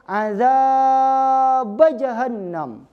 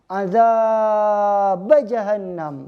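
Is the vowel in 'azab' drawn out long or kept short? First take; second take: long; long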